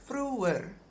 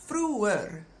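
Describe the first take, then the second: Both takes have the same delivery.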